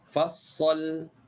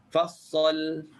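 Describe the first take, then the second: Both takes have the same delivery.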